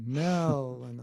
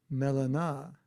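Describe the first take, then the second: First: "Melana" with a long, leaning MEL; alternative pronunciation. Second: "Melana" as mel-uh-NAH, open final vowel; alternative pronunciation. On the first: Host trying variants of a name, "Melana" stressed and stretched on MEL. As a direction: stretch the first syllable of "Melana": MEEEL-uh-nah. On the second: Host guessing at an attendee's name, trying "Melana" as mel-uh-NAH. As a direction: try "Melana" with a clear AH at the end. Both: Shown as a demonstration. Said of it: "is that pronounced properly".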